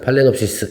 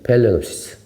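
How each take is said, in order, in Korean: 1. 첫 음절은 'pa'로 발음해요. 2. 첫 음절은 'pay'로 발음해요. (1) "국내에서는 보통 이제 호접란, 팔레놉시스 이렇게 하죠" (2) "정확한 명 발음은 페일레놉시스"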